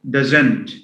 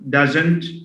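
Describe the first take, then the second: First: The stress is on the second syllable. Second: The stress is on the first syllable. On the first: The speaker calls it wrong. "some foreign language learners tend to say" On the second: The speaker calls it right. "stress falls on the on the first syllable"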